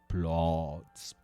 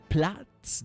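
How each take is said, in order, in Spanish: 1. La vocal suena cercana a una o. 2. La vocal es una a abierta. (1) "dirían" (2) "En vez de"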